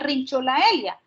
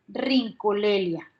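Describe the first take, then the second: First: It is said with a 'ch' sound and 'ae'. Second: It is said with a 'k' sound and 'e'. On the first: The speaker calls it wrong. "no se pronuncia Rincholaelia" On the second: The speaker calls it right. "sino que se pronuncia Rincolelia"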